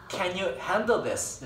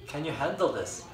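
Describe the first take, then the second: First: "can you handle this?" drawn out very slowly and clearly; slow it right down like a patient native; very slow repeat. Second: Said in the usual way. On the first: Shown as a demonstration. Teacher repeats the question slowly for students. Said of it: "나 pardon 이랬어". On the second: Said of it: "알겠니, 이제?".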